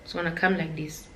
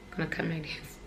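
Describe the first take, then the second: First: Said in the usual way. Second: Much softer, in a different dark voice; hushed ominous aside. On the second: Shown as a demonstration. A vlogger warning viewers about comparison, hushed and ominous.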